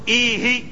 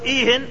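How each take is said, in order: First: The word ends without an n sound. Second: The word ends with an n sound. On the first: Continue the same talk already begun. "الكلام الذي كنت تتحدث فيه زدني منه" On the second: Say anything at all. "تكلم ما شئت غير معهود الكلام المطلق"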